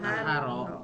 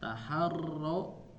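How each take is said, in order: First: The r sound is single and short. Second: The r sound is held long and doubled. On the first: "Kalau tidak ada tasdid" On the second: "tahar itu udah udah sukun, ro"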